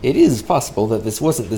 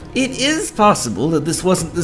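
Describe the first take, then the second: First: It is read in the speaker's normal voice. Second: It is read in a put-on, weird voice.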